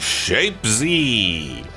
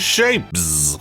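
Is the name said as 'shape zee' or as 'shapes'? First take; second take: shape zee; shapes. First: The name ends with a separate 'zee' sound. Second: The name ends with a plain 'z' sound. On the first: The speaker calls it wrong. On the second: The speaker calls it right.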